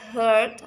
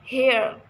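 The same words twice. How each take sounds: First: The vowel is a central uh sound. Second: The vowel is a front e sound. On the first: The speaker calls it right. "which should be pronounced heard" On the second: The speaker calls it wrong. "the Indonesian learners pronounce it with heard"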